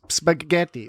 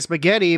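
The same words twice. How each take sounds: First: It is said in an Italian accent. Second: It is said in a plain English accent. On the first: "Italians say it's spaghetti" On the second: "if you say spaghetti"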